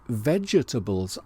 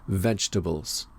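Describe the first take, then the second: First: The first E is pronounced, giving four syllables. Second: The first E is silent, giving three syllables. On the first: The speaker calls it wrong. "I sometimes say vegetables" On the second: The speaker calls it right. "the correct pronunciation is vegetables"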